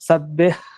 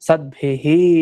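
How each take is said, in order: First: The final h is a soft half breath. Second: The final h is full with an echo vowel. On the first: The speaker calls it right. "ಸದ್ಭಿಃ ಅನ್ಬೇಕು" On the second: The speaker calls it wrong. "ಸದ್ಭಿಹಿ ಅಂತ ಹೇಳಿದ್ರೆ ಪೂರ್ಣ ಕೇಳ್ದ ಹಾಗೆ"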